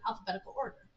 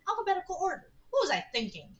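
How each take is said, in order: First: Said in the usual way. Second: High-pitched, incredulous echo; incredulous self-reproach. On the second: Acted. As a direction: repeat it as if appalled at yourself. Character scoffs at own filing.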